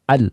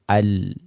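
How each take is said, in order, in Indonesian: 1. Bunyi akhir berhenti tiba-tiba. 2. Bunyi akhir berlanjut sebentar. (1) "tidak boleh dibaca al" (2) "Jalan sedikit suaranya"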